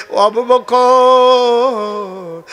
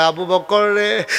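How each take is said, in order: First: Very slow, high, loud stretched call; drawn-out loving call. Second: Said in the usual way. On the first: Acted. The Prophet calling Abu Bakr, a long, high, loving call.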